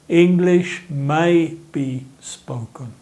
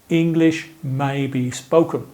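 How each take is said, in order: First: It is said a little more slowly. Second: It is said at a normal speaking speed.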